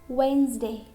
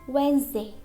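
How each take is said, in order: No difference in how they are said.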